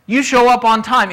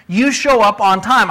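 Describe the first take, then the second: First: You show up on time, said firmly as a final order; firm command. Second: Said in the usual way. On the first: Shown as a demonstration. Boss firmly ordering a late employee, stern. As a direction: press the rule home firmly. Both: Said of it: "now I'm telling you so firmly".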